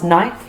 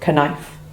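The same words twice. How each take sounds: First: The word starts with N, no K sound. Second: A K sound is heard before the N. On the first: The speaker calls it right. "We pronounce knife" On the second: The speaker calls it wrong. "not knife"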